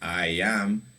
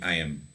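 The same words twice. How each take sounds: First: It is said as two separate full words. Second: It is said as one short contracted syllable. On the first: "When you said I am" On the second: "the contraction will be"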